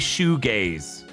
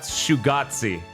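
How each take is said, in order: First: The word ends with a 'gaze' sound. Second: The word ends with a 'gatsy' sound. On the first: "As in, gaze" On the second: "it should be spelled like paparazzi if it's supposed to be said like that, but I wanted to say it that time"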